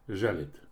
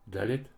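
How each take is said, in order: First: The word begins with a zh sound. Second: The word begins with a d sound. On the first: "Ж" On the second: "Д"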